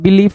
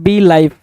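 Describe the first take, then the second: First: It is said as one word, 'belief'. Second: It is said as two parts, 'bee life'. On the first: The speaker calls it right. "बिलीफ होगा" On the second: The speaker calls it wrong. "तो बी लाइफ नहीं होगा"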